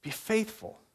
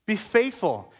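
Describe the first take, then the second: First: Much softer, gentle rising reminder; soft encouragement. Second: Said in the usual way. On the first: Real, not acted. Pastor gently urging the mocked church to hold on, soft and tender. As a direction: say it softly, like a reassuring hand on the shoulder. Soft repeat after heckle.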